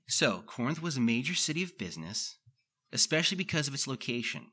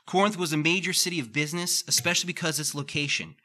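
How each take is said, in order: First: The sentence is read at a slower pace. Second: The sentence is read quickly and excitedly. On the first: The speaker calls it right. "slow down" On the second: The speaker calls it wrong. "I start to read really fast"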